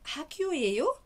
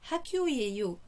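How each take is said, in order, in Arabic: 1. يُقال بنغمة السؤال. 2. يُقال بنغمة الجملة الخبرية. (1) "برضو بلهجة سؤال" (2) "يعني هذه تكون مدرسة"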